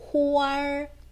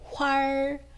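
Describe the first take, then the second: First: The word is split into two separate syllables. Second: The word is merged into one single syllable. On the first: The speaker calls it wrong. "이음절처럼 발음하는 것이 아니라" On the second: The speaker calls it right. "한 덩어리로"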